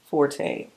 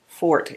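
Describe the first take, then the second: First: The word is said with two syllables. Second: The word is said with one syllable.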